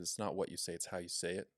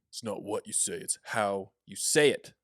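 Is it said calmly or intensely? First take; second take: calmly; intensely. First: It is said in a calm, plain way. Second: It is said in an intense way.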